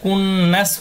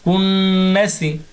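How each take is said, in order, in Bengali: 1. শব্দটি s ব্যঞ্জন দিয়ে শেষ হয়। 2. শব্দটি হ্রস্ব i স্বর দিয়ে শেষ হয়।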